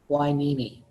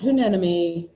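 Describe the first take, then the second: First: It is said as 'why-NEE-mee'. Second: It is said as 'hue-NEN-emy'. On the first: The speaker calls it right. "that word is pronounced Whinimi" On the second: The speaker calls it wrong. "Not Hunenemy"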